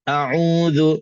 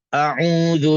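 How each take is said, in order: First: The first sound is pressed and strained in the throat. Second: The same.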